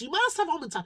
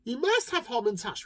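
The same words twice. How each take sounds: First: Higher insistent plea on must. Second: Said in the usual way. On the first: Acted. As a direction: push hard on must, higher and louder. Insisting to baker.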